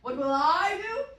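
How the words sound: The pronoun 'I' is stressed.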